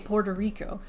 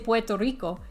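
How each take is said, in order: First: It is pronounced with English sounds. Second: It is pronounced with Spanish sounds. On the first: The speaker calls it right. "you say Puerto Rico when you're speaking English" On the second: The speaker calls it wrong. "You don't say Puerto Rico"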